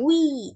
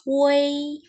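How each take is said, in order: First: It is a plain 'wi' with no middle e. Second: It has a middle e, sounding like 'wei'. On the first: The speaker calls it wrong. "Kita bacanya bukan wi" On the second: The speaker calls it right. "tapi bacanya wei"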